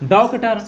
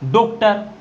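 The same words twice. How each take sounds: First: The first vowel is an 'au' sound. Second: The first vowel is a plain 'o' sound. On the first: "औ की मात्रा लगाया तो निकल गया डॉक्टर" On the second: "ये हमारा ओ था, तो ये क्या निकला"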